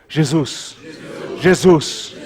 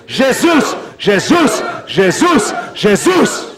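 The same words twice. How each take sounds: First: Said in the usual way. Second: High repeated cry of the name; shouted louder. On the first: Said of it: "Diga comigo". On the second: Real, not acted. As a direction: whip the congregation into a shouted chant. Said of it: "mais alto".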